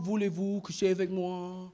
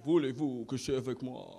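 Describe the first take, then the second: First: Sung, low, soft quote of a French love song. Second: Very low, soft Parisian French; Parisian French accent. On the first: Retold or imitated. Sung, comic quotes a seductive song to the crowd, low song quote. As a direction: croon the French line low. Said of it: "you remember the song". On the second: Acted. Comic shows how somebody from Paris would say it, low Parisian French. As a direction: murmur it as a seductive Parisian. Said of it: "that's Parisian French".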